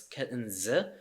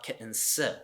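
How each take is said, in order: First: The word ends with a voiced z sound. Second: The word ends with a voiceless s sound. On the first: The speaker calls it right. "so it's kitten z" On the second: The speaker calls it wrong. "it's not s, it's not voiceless um, consonant, it's not kitten s"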